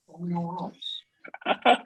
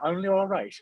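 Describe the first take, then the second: First: Badly faked Irish lilt, higher pitched; terrible Irish accent. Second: High-pitched mock Irish accent; terrible Irish accent. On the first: Player mocking his roommate as all right, terrible Irish accent. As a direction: put on a poor Irish accent. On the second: Host repeating the jibe back, exaggerated bad Irish accent. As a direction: echo it in a badly faked Irish accent. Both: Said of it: "That was a terrible accent".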